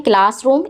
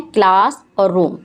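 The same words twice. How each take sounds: First: Said in the usual way. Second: "क्लास और रूम" as two separate parts; split into syllables. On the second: Shown as a demonstration. Teacher counting syllables for pupils, "क्लास और रूम" said part by part. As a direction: set "क्लास" apart from "रूम". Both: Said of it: "इसमें दो syllable हैं".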